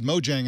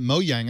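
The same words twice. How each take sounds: First: The name is said with a plain English pronunciation. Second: The name is said with a Swedish-style pronunciation. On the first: "you pronounced it Mojang" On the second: "I pronounced it Mojang. I was trying to be Swedish"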